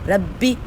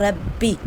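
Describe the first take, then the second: Both takes have the same delivery.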